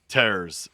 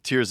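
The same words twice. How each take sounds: First: Tears is said like ripping, rhyming with bears. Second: Tears is said like crying, rhyming with fears. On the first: It refers to the kingdom being torn apart. "a play on tearing" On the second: It refers to crying. "most people are going to say that"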